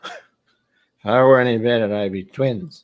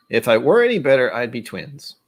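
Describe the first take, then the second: First: Slow, slurred tipsy delivery; mock-drunk slow slur. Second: Said in the usual way. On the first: Shown as a demonstration. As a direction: drawl it out like a drunk. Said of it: "sounds like a drunk statement". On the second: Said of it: "I read it and went".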